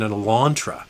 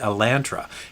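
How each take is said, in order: First: It is pronounced the American way. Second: It is pronounced the Canadian way. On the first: "In the States, an Elantra" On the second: "in Canada, it's commonly referred to as a Hyundai Elantra"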